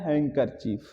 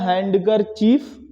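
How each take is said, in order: First: No d sound is heard after the n. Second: A d sound is heard after the n. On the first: This is how the word is actually said. "पढ़ा जाता है ... डी silent होता है" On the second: This is how the word is spelled. "ये लिखा तो जाता है"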